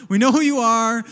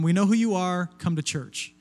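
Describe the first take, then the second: First: Louder, higher call-out; pointed mock threat, pushed loud; mock warning. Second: Said in the usual way. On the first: Pastor rewording the sign for the thieves, mock threatening.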